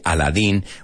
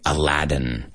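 First: The name is said the Spanish way. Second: The name is said the English way. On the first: This is how the listeners say it. "You say Aladdin" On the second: This is how the speaker's side says it. "We say Aladdin"

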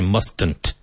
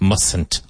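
First: The first t is pronounced clearly and strongly. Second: The first t is weak and almost silent. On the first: The speaker calls it wrong. "we never say mustn't" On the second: The speaker calls it right. "the first T is not strong. It's almost silent"

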